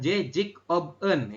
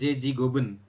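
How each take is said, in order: First: The k ends the first word, not linked. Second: The consonant carries over to start the next word. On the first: "Tulisannya kan Jejik Oben" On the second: "Kita bacanya adalah Jeji Goben"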